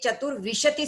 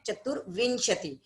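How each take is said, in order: First: No nasal sound comes before the 'sh'. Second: A nasal sound comes before the 'sh'. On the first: The speaker calls it wrong. "ये चतुर्विशति स्तव नहीं है" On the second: The speaker calls it right. "जो ऊपर है वहां पे बिंदी है"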